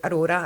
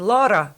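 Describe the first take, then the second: First: AURORA with its opening vowel, "a-RO-ra"; name as intended. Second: LAURA in two syllables, higher and louder; misheard as Laura. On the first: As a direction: introduce yourself as AURORA, all three syllables. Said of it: "that way I was like". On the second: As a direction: echo the name wrongly as a punched "LAW-ra". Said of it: "they were going". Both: Retold or imitated.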